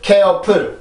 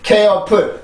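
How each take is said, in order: First: It is said with Korean-style syllables and sounds. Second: The same.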